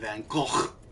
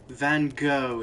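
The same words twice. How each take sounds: First: The ending sounds like the word cock. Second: It is said in a posh English style. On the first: The speaker knows the real name and finds it funny. "if you know his actual name and think it's funny because it sounds like cock" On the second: The speaker is a posh English person. "if you're English and a hoity-toity"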